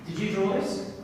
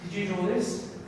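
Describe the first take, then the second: First: "draw" pushed as the key word; stress on draw. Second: "this" stressed, ending in a rise. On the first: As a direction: lean on "draw", let "this" fall away. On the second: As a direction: hit "this" and lift the end. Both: Shown as a demonstration.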